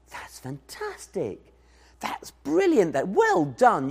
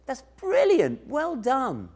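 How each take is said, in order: First: Encouraging praise. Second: High, slow, beaming praise; smiling praise. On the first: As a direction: cheer the little one on. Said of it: "You give them lots of encouragement". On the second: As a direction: beam at a child's drawing. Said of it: "He smiles and says". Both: Pretend.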